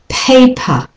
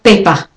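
First: The first p has a puff of air. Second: The first p has no puff of air. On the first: The speaker calls it right. "don't hold your lips tight and puff of it" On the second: The speaker calls it wrong. "not paper"

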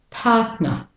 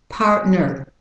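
First: It is said in a British-Australian accent. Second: It is said in an American accent. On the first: "So the British Australian first" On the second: "with the American accent"

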